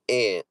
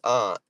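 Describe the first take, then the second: First: "aunt" said like "ant"; ant pronunciation. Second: "aunt" said as "ahnt"; ahnt pronunciation. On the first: Showing viewers a regional version, "aunt" said as "ant". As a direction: say "aunt" with the short a of "cat". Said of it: "you got me fucked up". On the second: Repeating Boston's version for viewers, "aunt" said as "ahnt". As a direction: open ah vowel in "aunt", not the a of "cat". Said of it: "how you say it". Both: Shown as a demonstration.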